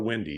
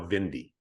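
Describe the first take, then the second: First: The name starts with a W sound. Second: The name starts with a V sound. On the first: The old, English way of saying the name. "he's no longer windy" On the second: A new, German-style way of saying the name. "He's now Vindy"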